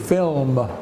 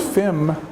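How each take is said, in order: First: The L sound is clearly pronounced. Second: The L sound is left out. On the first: The speaker calls it right. "you have to say the L" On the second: The speaker calls it wrong. "If you don't say the L, it's fim"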